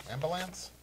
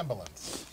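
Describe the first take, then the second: First: "Ambulance" with a full, clear "-lance" ending, questioning; alternative pronunciation. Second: Said in the usual way. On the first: Real, not acted. Co-host querying how the word is said, alternative pronunciation. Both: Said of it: "you said it properly the first time".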